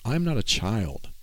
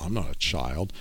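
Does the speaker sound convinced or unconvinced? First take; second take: convinced; unconvinced. First: It is said firmly, with full conviction. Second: It is said half-heartedly, without conviction. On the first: The speaker truly believes it. The speaker calls it right. "I'm going to say it like I really mean it" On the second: The speaker does not truly believe it. The speaker calls it wrong. "I'm not going to say like, well"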